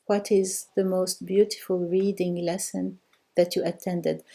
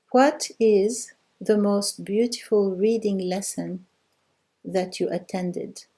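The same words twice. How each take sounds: First: Said in the usual way. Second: Slow and carefully spaced, each word given room; slow model answer. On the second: Shown as a demonstration. Teacher giving students the translation, slow and deliberate. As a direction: read it out slowly so the class can follow. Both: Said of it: "Okay, the answer is".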